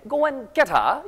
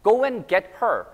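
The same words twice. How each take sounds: First: Higher British "get her" as "getta"; rising British English line; British accent. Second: Said in the usual way. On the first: Shown as a demonstration. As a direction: say it like a Brit, linked crisp t and no r. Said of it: "영국 용어에선".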